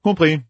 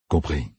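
First: A quick, higher "Compris" from Matt. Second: Put-on a lower, softer "Compris" from the old gleeman; Tom, lower. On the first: Matt agrees curtly to Jolene, higher pitched. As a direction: clip it off as the younger man. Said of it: "fit Matt". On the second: Tom answers Matt, lower and softer. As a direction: say it low and quiet. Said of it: "fit Tom". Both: A narrator's reading.

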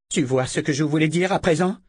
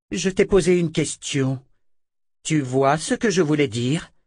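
First: Cri moqueur. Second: Insistance furieuse. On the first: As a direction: question furieuse, plus aiguë. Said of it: "cria Verna". (Verna crie sur Richard en le torturant) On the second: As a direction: question répétée, plus aiguë et forte. Verna torture et interroge Richard. (Verna exige une réponse, furieuse) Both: A narrator's reading.

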